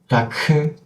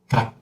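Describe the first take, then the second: First: The final consonant is released with a vowel. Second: The final consonant is cut off without release. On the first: The speaker calls it wrong. "If you do like this, it means you open your throat again to make the second sound" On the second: The speaker calls it right. "you have to close and cut"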